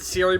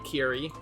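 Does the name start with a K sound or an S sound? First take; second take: S sound; K sound. First: The name begins with an S sound. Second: The name begins with a K sound. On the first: The speaker calls it wrong. "I read the C as, a, as an S sound" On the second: The speaker calls it right. "I think it's supposed to be Kiri"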